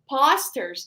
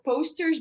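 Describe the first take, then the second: First: The word has a non-standard, accented pronunciation. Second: The word has the standard English pronunciation. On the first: The speaker calls it wrong. "used to say like posters" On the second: The speaker calls it right. "not posters"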